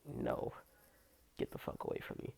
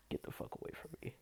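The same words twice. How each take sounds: First: Soft unvoiced brush-off; whispered rejection. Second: Faster, softer whispered brush-off. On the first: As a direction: whisper it through your teeth. Rejecting pervert in locker room. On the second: Retold or imitated. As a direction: rattle it off in a hushed whisper. Repeated rejection, faster.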